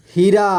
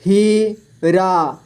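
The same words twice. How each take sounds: First: Said in the usual way. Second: Heera split slowly into ही, रा; syllable by syllable. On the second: Shown as a demonstration. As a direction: stretch and separate ही and रा in हीरा. (हीरा को तोड़कर धीरे: ही, रा) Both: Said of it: "इस तरह से आपको".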